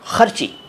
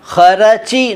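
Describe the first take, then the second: First: The r runs straight into ch with no vowel. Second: A vowel is heard between r and ch. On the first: The speaker calls it right. "र आधा ही है" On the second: The speaker calls it wrong. "खरची नहीं"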